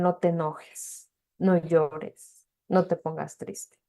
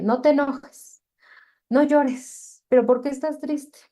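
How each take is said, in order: First: Said in the usual way. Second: Scolding parent. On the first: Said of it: "es el". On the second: Retold or imitated. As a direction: play the dismissive parent brushing feelings off. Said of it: "culturalmente es como de".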